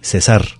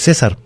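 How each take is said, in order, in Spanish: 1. El acento cae en la última sílaba. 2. El acento cae en la primera sílaba. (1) "Si no, dice César" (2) "Necesita el acento en la E"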